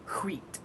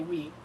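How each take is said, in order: First: It starts with a breathy h before w. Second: It starts with a plain w sound. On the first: "you're supposed to emphasize the h sound" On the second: "for years we say wheat"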